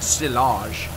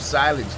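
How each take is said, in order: First: It is said with a French-style pronunciation. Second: It is said with a plain English pronunciation.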